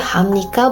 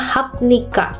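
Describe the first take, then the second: First: An 'm' sound comes before 'nika'. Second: A 'p' sound comes before 'nika'. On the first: The speaker calls it right. "jadi hamnika" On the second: The speaker calls it wrong. "bukan hapnika"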